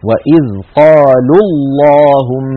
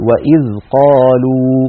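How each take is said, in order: First: Slow recitation, قالوا running straight into اللهم; joined, long waw dropped. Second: Slow recitation ending on a full uu in قالوا; stopping on long waw. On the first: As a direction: recite وإذ قالوا اللهم as one phrase, shortening the final uu of قالوا to u. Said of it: "سقط الأول من النطق وصلا". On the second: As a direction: recite وإذ قالوا and stop, holding the final waw. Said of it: "فإن وقفنا نقول". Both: Shown as a demonstration.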